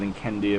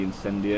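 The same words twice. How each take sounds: First: Incendia with a hard K sound in the middle; hard C pronunciation. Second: Incendia with a soft S sound in the middle; soft C pronunciation. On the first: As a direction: say Incendia as "in-KEN-dia". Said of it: "I'm gonna go with". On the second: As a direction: say Incendia as "in-SEN-dia". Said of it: "it's probably". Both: Shown as a demonstration.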